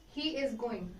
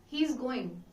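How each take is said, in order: First: He and is are said as separate words. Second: He and is merge into one syllable.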